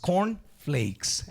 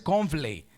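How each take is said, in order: First: The word ends with a final s sound. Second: The word ends without a final s sound. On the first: The speaker calls it right. "es cornflakes" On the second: The speaker calls it wrong. "no es cornflake"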